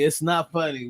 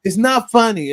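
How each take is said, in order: First: Said in the usual way. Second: Insistent. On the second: Real, not acted. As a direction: push back, firmly.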